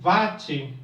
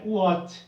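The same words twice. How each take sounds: First: Watt is said with an everyday Portuguese pronunciation. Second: Watt is said like the English surname. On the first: This is how people say it in daily life. The speaker calls it wrong. "No cotidiano fala-se em watt" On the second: This follows the scientist's surname. The speaker calls it right. "mas o correto é watt. É sobrenome de um cientista"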